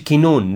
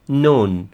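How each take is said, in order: First: The initial k is pronounced before the n. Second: The initial k is silent; it starts with n. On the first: The speaker calls it wrong. "ما تقولش كنون" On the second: The speaker calls it right. "كلمة الكيل الاولانية دي ما بتنطقش، silent"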